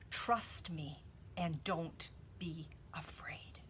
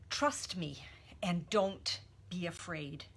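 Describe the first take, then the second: First: Slow, soft whisper, no voice at all. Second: Said in the usual way. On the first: Shown as a demonstration. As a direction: breathe the words as a tender whisper.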